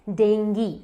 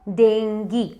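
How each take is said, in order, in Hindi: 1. शब्द 'gee' की आवाज़ से खत्म होता है। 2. शब्द 'gee' की आवाज़ से खत्म होता है।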